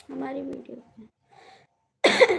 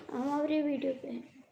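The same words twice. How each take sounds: First: हमारी video पे said slowly and much louder, हमारी stressed, rising at the end; slow loud repeat. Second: Said in the usual way. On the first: Real, not acted. Repeats the phrase for emphasis.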